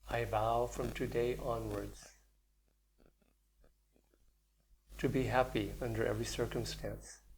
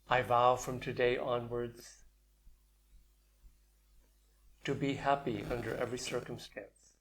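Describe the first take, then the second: First: It is said quietly and softly. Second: It is said at a fuller, louder volume.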